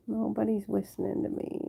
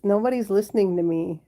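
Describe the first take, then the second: First: Much softer, to oneself; small, hushed lament; soft complaint. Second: Said in the usual way. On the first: Real, not acted. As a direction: grumble it quietly to yourself. Repeats the complaint softly to herself.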